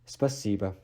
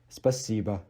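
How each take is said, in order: No difference in how they are said.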